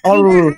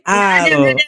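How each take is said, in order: First: The vowel is a rounded 'o' sound. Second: The vowel is an open 'a' sound. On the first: This is how the other group pronounces it. "tapi bagi teman-teman ol" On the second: This is how one group pronounces it. "A L itu bagi kami al"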